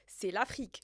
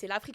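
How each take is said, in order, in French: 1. Cela se dit avec un soupir résigné. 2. Cela se dit sur un ton enthousiaste et positif. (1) "avec un soupir" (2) "On doit prendre une autre intonation maintenant"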